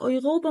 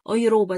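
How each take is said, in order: First: "أيغوبة" with a throaty uvular R. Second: "أيروبا" with a tongue-tip R; R as tapped R. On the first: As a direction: say "أيغوبة" with R like Arabic ghain. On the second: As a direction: say "أيروبا" with R like Arabic ra. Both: Shown as a demonstration. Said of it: "كغين وكآ".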